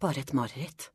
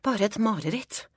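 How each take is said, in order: First: Softly said to oneself; self-soothing. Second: Higher, firmer second try at convincing oneself; raised, insistent self-talk; insistent self-reassurance. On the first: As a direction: tell yourself quietly it is nothing. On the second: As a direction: say it to yourself, pitched up. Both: A narrator's reading. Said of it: "sier jeg til meg selv".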